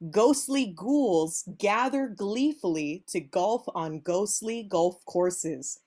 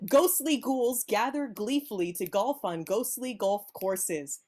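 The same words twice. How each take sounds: First: It is said at a normal pace. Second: It is said at a quicker pace.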